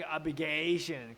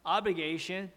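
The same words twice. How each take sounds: First: Mock the learner's rising "obligation"; wrong rising stress. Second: Teacher's correct "obligation", flat then falling; corrected falling stress. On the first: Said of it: "don't make it like". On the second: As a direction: keep "obli" flat and drop on "gation". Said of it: "Actually, it's". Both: Shown as a demonstration.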